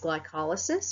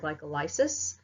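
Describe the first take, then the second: First: The ending blends into the word as usual. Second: The ending sounds like the separate word lysis.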